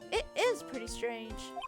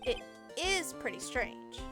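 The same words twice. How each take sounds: First: The line is read with lively, enthusiastic energy. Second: The line is read flatly, with little energy. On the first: The speaker calls it right. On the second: The speaker calls it wrong.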